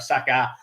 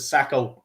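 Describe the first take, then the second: First: The name is said as 'Saka'. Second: The name is said as 'Sacco'. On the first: It is the speaker's corrected form of the name. The speaker calls it right. "or Saka" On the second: It copies how the commentator says the name. The speaker calls it wrong. "the commentator keeps calling him Sacco"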